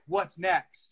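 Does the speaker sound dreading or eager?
eager. It sounds hopeful and eager. The future is looked forward to. The speaker calls it right. "say the same words, but in a different tone"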